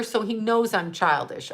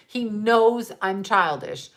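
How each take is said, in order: First: Said in the usual way. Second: KNOWS drawn out, slow and emphatic; slow insistence with weight on "knows"; stress on KNOWS. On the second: Real, not acted. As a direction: repeat it slowly, leaning hard on "knows". Repeats the point for emphasis.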